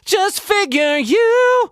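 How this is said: It is voiced in a light head voice. The speaker calls it wrong. "It's not head voice"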